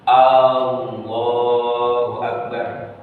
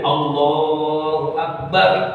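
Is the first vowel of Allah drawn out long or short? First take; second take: long; short. First: The first vowel of Allah is drawn out long. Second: The first vowel of Allah is kept short. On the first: It asks whether God is the greatest. The speaker calls it wrong. "kalau memanjangkan lafaz hamzah menjadi istifham" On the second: It states that God is the greatest. The speaker calls it right. "pernyataan Allah maha besar, nggak boleh dipanjang-panjangin"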